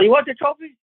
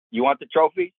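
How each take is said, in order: First: High pointed question; high mock-stern question from Tina; wife on the phone. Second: High mock-stern question; high pointed question from Tina; wife on the phone. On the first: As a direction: mimic her blunt offer. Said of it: "she's all". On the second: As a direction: play her demanding it. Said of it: "first words out of her mouth".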